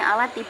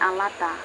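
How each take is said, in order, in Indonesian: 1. Kata ini berakhir dengan vokal 'i'. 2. Kata ini berakhir dengan vokal 'a'. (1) "dibacanya alati" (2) "bukan alata"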